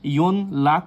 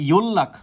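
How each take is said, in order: First: An n sound is followed by an l sound. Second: The n becomes l, giving a double l. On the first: The speaker calls it wrong. "বা ইয়ন লাক উচ্চারিত হবে না" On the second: The speaker calls it right. "এটা উচ্চারিত হবে ইয়োল্লাক"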